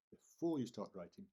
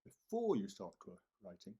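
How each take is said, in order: First: Before punched again; second take stressing before. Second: Before said louder and hit hard; teacher hammering the word before; stress on before. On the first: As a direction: repeat with weight on before. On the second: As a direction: lean on before to make the point. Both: Shown as a demonstration. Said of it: "and I emphasize that word again".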